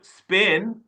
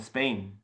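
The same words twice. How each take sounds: First: "Spain" in an Asian accent, with a pure short vowel and rising end. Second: Said in the usual way. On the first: Shown as a demonstration. Coach showing the accented take, "Spain" in an Asian accent. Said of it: "with my Asian accent". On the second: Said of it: "look how he said Spain".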